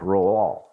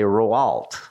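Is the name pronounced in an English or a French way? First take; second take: French; English. First: The name is said the French way. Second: The name is read out the English way. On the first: "I think the French say something like Rouault" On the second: "I would look at it and say Roault"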